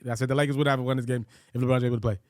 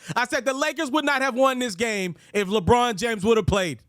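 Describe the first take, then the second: First: It is said in a plain, normal voice. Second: It is said forcefully, with loud confidence.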